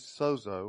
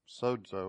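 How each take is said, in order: First: The word is said with an English pronunciation. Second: The word is said with a Greek pronunciation.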